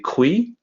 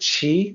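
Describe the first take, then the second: First: The word begins with a 'kw' sound. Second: The word begins with a 'ch' sound. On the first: The speaker calls it wrong. "some people will look at that and maybe say qui" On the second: The speaker calls it right. "it actually sounds like chi with a C H"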